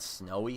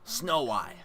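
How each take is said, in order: First: It is said smoothly as one ordinary word. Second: It is split into two separate words. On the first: "I said snowy" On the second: "but I pronounced it"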